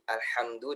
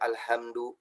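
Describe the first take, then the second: First: The h is a tense, throaty sound. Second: The h is a plain, soft breathy sound. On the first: The speaker calls it right. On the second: The speaker calls it wrong.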